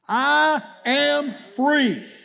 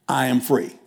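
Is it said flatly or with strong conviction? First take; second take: strong conviction; flatly. First: It is said with strong, believing conviction. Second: It is said plainly, without special conviction.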